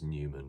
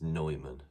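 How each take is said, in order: First: The first syllable sounds like 'new'. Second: The first syllable sounds like 'noy'. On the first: The speaker calls it wrong. "not as Newman" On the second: The speaker calls it right. "I also must remember to pronounce it as Neumann"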